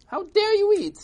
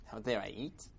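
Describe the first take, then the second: First: High, loud scandalised yell; upset. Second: Softer, puzzled echo; unbothered reply. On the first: Crowd scolds old man for eating, high outraged shout. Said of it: "they were all upset". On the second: Old man answers angry crowd, soft and unbothered. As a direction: toss the question back quietly. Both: Acted.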